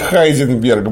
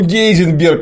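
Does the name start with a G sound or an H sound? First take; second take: H sound; G sound. First: The name begins with an H sound. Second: The name begins with a hard G sound. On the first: The speaker calls it wrong. "никакой не Хайзенберг" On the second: The speaker calls it right. "Гейзенберг он никакой не Хайзенберг"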